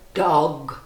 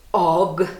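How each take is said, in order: No difference in how they are said.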